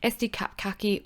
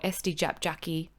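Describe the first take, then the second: First: The C letters are said with a K sound. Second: The C letters are said with a J sound.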